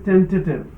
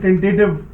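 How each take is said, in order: First: The word is said soft and light. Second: The word is said hard and forcefully. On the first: The speaker calls it right. "but it is" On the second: The speaker calls it wrong. "Generally हमारी आदत में"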